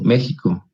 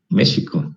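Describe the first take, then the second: First: The x is pronounced the way Spaniards say it. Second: The x is pronounced the Mexican, Nahuatl way. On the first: This is how people from Spain say it. The speaker calls it wrong. "Por eso dicen México" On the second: This is the original form of the word. The speaker calls it right. "debería decir México, es la palabra correcta, en náhuatl"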